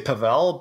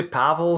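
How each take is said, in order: First: "Pavel" with weak first vowel, stressed -vel; Pavel stressed on second syllable. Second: "Pavel" with stressed short a, weak ending; Pavel stressed on first syllable. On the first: Guest gives host the other way of saying his name, "Pavel" as puh-VELL. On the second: Guest tells host how some people say his name, "Pavel" as PAV-el. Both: Shown as a demonstration. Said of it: "some people say".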